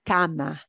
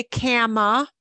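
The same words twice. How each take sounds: First: Cama with open Spanish "ah" in both syllables; correct Spanish pronunciation. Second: Cama with an English short A, as in "cat"; wrong English pronunciation. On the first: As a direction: say cama as "KAH-mah", every letter sounded. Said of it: "It's cama". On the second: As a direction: say cama as "KAM-uh", American vowel. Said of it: "important not to say cama". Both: Shown as a demonstration.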